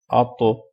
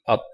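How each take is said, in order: First: The final consonant ends with a bouncing echo. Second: The final consonant stops cleanly without echo. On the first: The speaker calls it right. "You do Qalqala on these letters" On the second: The speaker calls it wrong. "But that's not how you read"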